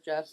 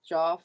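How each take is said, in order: First: "Jeff" with a short E; standard pronunciation. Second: "Joff" with an open AW vowel; alternative pronunciation. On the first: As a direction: say "Jeff" to rhyme with "chef". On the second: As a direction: say "Joff" to rhyme with "off". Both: Shown as a demonstration. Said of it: "people pronounce it like Joff or Jeff".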